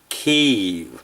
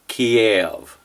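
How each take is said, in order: First: It is said the way Ukrainians say it. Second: It is said the older Russian-style way. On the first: It reflects Ukrainian independence. "the way the Ukrainians say it" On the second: It reflects the era of Russian control. "we pronounced the Ukrainian capital Kiev when Ukraine was controlled by Russia"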